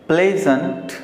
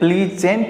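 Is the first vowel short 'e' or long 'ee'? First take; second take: short e; long ee. First: The first vowel is a short 'e' sound. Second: The first vowel is a long 'ee' sound. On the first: The speaker calls it right. "इसे क्या पढ़ना है, प्लेजेंट" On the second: The speaker calls it wrong. "प्लीजेंट बोलेंगे गलत हो जाएगा"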